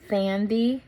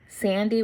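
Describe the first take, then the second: First: It begins with a lisped th sound. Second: It begins with a clear s sound.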